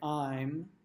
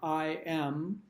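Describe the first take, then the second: First: It is said as one contracted syllable. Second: It is said as two full words.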